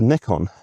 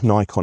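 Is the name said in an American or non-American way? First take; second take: non-American; American. First: The name is said the non-American way. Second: The name is said the American way.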